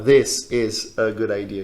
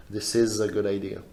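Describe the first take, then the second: First: "This... is... a... good idea", slow; separated words. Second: "This is a" run together as "thisiza", lower; linked words. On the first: Teacher showing how one doesn't say it, words separated. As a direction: put a break after "This" and "is". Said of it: "a gente não fala". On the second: Teacher showing how one does say it, linked. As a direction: glide through "This is a good idea" softly. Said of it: "a gente fala". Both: Shown as a demonstration.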